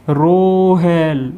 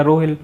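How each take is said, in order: First: रोहेल called out with the ए held very long and slow; long drawn call. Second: Said in the usual way. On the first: Shown as a demonstration. Teacher demonstrating a far-off call to students, long drawn ए. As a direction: call रोहेल across a distance, stretching the ए. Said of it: "बहुत, बहुत लंबा खींच रहा है". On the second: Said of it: "पास में खड़े हैं तो सामने वाला क्या बोलेगा".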